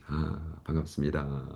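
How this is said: The greeting is soft and gentle.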